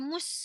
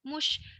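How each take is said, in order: First: The word ends with a plain s sound. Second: The word ends with an sh sound. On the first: The speaker calls it wrong. "Bukan mus" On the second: The speaker calls it right.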